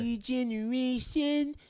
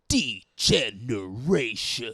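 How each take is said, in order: First: The word is said at a normal pace. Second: The word is said slowly and drawn out.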